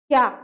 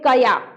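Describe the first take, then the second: First: The k joins directly onto ya. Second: A short vowel separates k and ya. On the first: "इसको पढ़ेंगे क्या क्या" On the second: "पूरा क और या, तब पढ़ेंगे कया"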